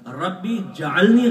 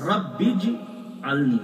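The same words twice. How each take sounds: First: ربی جعلنی slow and louder, ربی split off; wrong pronunciation. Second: رب اجعلنی very slow, ba joined to jim; careful model of رب اجعلنی; correct Arabic pronunciation. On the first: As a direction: mimic the common ربی جعلنی mistake. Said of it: "غلط". (ربی جعلنی غلط تلفظ، الگ الگ) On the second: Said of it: "یہ صحیح تلفظ ہے". (رب اجعلنی صحیح تلفظ، ٹھہر کر) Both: Shown as a demonstration.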